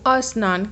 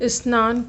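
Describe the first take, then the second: First: An extra 'a' vowel comes before the 'sn'. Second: It starts directly with the consonant cluster 'sn'. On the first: The speaker calls it wrong. "अस्नान कहना ही क्या है, उच्चारण दोष है" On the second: The speaker calls it right. "स्नान को"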